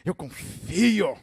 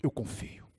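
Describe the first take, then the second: First: Drawn-out, showy profession of faith; mock-devout, stretched declaration; easy confident boast. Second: Very soft, low avowal; hushed, fragile profession of trust; trust by a thread. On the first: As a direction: declare trust grandly from safe ground. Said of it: "Quando você tá lá em cima, terra firme". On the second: Retold or imitated. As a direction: murmur faith while barely hanging on. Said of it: "num fio de esperança, mas ele disse".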